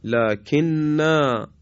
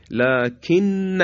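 First: لکننا very slow, ending on a long "naa"; pausal form. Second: لکن very slow and higher, ending on a short "na"; connected form. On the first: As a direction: stretch لکننا out and hold the final "naa". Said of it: "یا کلمهٔ لکننا". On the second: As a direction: say لکن with a short final vowel. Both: Shown as a demonstration.

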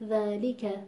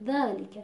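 First: ذالک with natural long ā and a complete li; ذالک evenly weighted, lām vowel fully sounded; full natural weight. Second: ذالک with li shrunk under the long ā; ذالک with a snatched kasra on lām; clipped lām vowel. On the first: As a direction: give each letter of ذالک its due. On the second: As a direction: let dhā swallow the li in ذالک. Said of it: "زیر سایهٔ ذا قرار گرفته". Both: Shown as a demonstration.

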